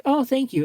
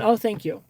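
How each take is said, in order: First: Much higher, sugary thank-you; hammed-up girly gratitude; mock sweet thanks. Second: Higher, brief sweet thank-you; a short sweet reply, then nothing; lightly hammed-up thanks; mock sweet thanks. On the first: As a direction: thank him sweetly and leave it there. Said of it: "And you'll be like". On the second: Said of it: "You don't say anything other than".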